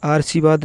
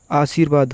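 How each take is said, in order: First: आशीर्वाद said as "aarsivaad"; आशीर्वाद as आर्शीवाद; wrong pronunciation. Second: आशीर्वाद said as "aasir-vaad"; आशीर्वाद with r after the long i; correct pronunciation. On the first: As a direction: move the r before the s in आशीर्वाद. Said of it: "आशीर्वाद नहीं". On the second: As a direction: put the r just before the v in आशीर्वाद. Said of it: "आशीर्वाद होगा". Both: Shown as a demonstration.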